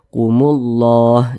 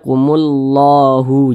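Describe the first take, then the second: First: The word ends on a silent h sound. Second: The word ends with an added u vowel. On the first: The speaker calls it right. "kita baca kumullah" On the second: The speaker calls it wrong. "jangan dibaca kumullahu, jangan"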